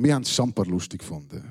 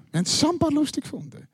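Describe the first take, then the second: First: Said in the usual way. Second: Higher and fast, giggly "lustig"; high, quick amused echo of the line; giddy repeat. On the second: Shown as a demonstration.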